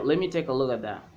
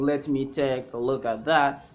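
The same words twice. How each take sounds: First: 'Let me' is blended into 'lemme'. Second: 'Let me' is said with both words fully. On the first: "you can say" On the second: "Instead of saying"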